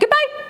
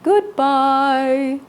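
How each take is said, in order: First: It is said fast. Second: It is said slowly.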